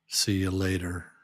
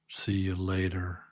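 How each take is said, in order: No difference in how they are said.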